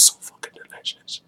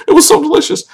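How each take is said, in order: First: Voiceless, softened aside on the swearing; whispered under the breath; hushed whisper. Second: Said in the usual way. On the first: Real, not acted. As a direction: whisper it softly. Swear word hushed, then restated.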